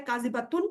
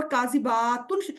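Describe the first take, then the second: First: کاذباتن with the با unstretched, as the singular; کاذباتن said ba-tun, short a. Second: کاذباتن with the با stretched, as the plural; کاذباتن, long aa before tun; long baa. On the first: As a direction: keep the ba brief in کاذباتن. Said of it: "ایک کو". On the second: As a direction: draw out the با in کاذباتن. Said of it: "شو کرتا ہے جمع کو". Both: Shown as a demonstration.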